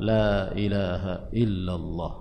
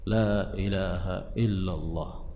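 No difference in how they are said.

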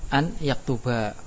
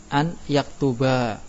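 No difference in how they are said.

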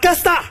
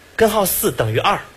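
First: Most syllables are swallowed and the phrase is slurred. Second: Every syllable is pronounced clearly and fully.

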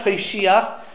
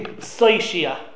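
First: The word begins with a t sound. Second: The word begins with an s sound. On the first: The speaker calls it wrong. "I was saying this wrong the whole time" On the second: The speaker calls it right. "without a dot in the Saf"

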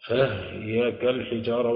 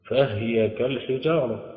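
First: The ha has no vowel. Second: The ha carries a vowel. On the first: "أسكن الهاء" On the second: "على أصل الهاء"

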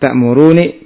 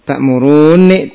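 First: A single short n sound is heard. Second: A long doubled n sound is heard. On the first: One of the two nuns is dropped. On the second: The two nuns are merged into one. "dengan didohomkan"

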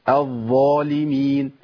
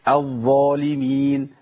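No difference in how they are said.

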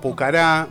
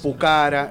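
First: The stress is on the final syllable. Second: The stress is on the second syllable. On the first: The speaker calls it wrong. "vos lo conocés como Pucará" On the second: The speaker calls it right. "Es grave, ¿viste? Entonces es Pucará"

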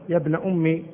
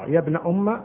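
First: The last word ends in an 'i' vowel. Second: The last word ends in an 'a' vowel. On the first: "بالكسر" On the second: "بالفتح"

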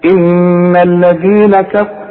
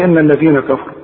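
First: The doubled n is held with a nasal hum. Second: The doubled n is short, without held nasal sound. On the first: The speaker calls it right. "كل نون في القرآن لازم تغن مدام عليها الشدة" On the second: The speaker calls it wrong. "فما تقولش ان الذين كفروا"

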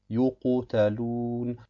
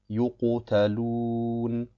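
Both takes have the same delivery.

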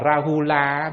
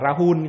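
First: The word ends with a short final vowel. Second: The word ends on the consonant, no final vowel.

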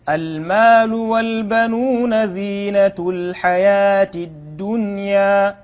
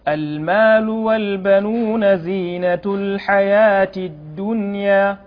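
The two takes are said the same way.

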